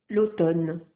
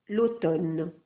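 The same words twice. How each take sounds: Both takes have the same delivery.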